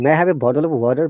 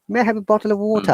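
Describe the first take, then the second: First: It is said in an American accent. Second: It is said in a British accent. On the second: "British. The sound is clear, distinct"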